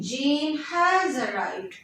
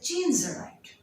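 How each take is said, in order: First: The word has is said fully and clearly. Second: The word has is contracted to a single s. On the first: "rather than saying Jane has arrived" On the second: "you will make it more shorter"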